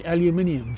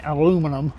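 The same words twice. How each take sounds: First: "aluminium" said the British way, al-yoo-MIN-ee-um. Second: "aluminum" said the American way, a-LOO-mi-num. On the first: Repeating for the viewer, "aluminium" the British way. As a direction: give "aluminium" five syllables, stress on MIN. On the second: Repeating for the viewer, "aluminum" the American way. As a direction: give "aluminum" four syllables, stress on LOO. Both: Shown as a demonstration. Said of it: "It's called aluminium".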